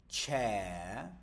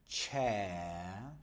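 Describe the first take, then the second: No difference in how they are said.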